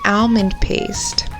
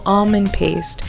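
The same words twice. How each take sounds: First: The first syllable sounds like 'al'. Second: The first syllable sounds like 'all'. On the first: The speaker calls it wrong. "it's not al" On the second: The speaker calls it right. "it's all. So almond paste"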